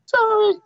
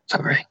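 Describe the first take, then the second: First: Put-on very high squeaky little girl; plucky hopeful orphan. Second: Said in the usual way. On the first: Shown as a demonstration. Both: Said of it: "forgot what Little Orphan Annie's voice was like".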